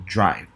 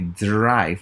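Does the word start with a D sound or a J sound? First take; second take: J sound; D sound. First: It begins with a J sound before R. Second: It begins with a crisp D sound before R. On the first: The speaker calls it right. "The D R is just like uh, J R" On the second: The speaker calls it wrong. "We don't say drive"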